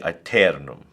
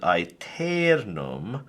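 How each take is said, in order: First: The middle E is kept short. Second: The middle E is held long. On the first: The speaker calls it right. "but you would say aeternum" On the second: The speaker calls it wrong. "Now you won't make the E long, right? You won't pronounce it aeternum"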